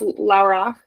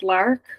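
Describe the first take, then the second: First: The word is said slowly, with both syllables. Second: The word is said fast, nearly one syllable. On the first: "it's pronounced Laurach" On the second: "if you were to say it fast"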